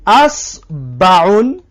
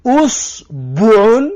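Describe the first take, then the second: First: اسبعون slowly with an open a at the start; fatha on first letter. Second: اسبعون slowly as usbuun with u at the start; damma on first letter. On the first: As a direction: stretch out اسبعون as asbaun, opening with a. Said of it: "همزه را بگی فتحه بمان". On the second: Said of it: "هفتم نمودش". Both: Shown as a demonstration.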